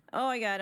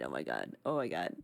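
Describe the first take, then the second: First: Said in the usual way. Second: Very low, softer, goofy deep voice; mock deep voice. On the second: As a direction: sink the voice deep down, playfully. Deep voice then own voice.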